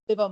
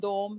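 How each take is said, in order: First: It is said as two syllables, divam. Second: It is said as one syllable, dom. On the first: The speaker calls it right. "दाल, वाओ, मीम दिवम होता है" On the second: The speaker calls it wrong. "आपने जो लिखा आया उसके मुताबिक पढ़ दिया"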